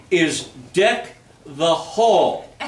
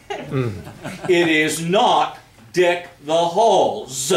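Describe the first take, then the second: First: Hall said with no s at the end; no S on Hall, clean ending; singular hall. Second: Halls said with a clear s at the end, the wrong way; the wrong plural, s sounded on Halls. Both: Shown as a demonstration.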